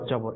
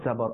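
First: It starts with the everyday Bengali 'j' sound. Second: It starts with the sound of the letter zā. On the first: The speaker calls it wrong. "আমরা জবর বলে ফেলি" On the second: The speaker calls it right. "অর্থাৎ জা দিয়ে"

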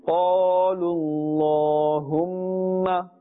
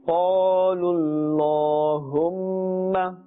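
Both takes have the same delivery.

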